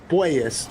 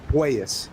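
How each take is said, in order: First: The first syllable sounds like 'poi'. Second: The first syllable sounds like 'poi'.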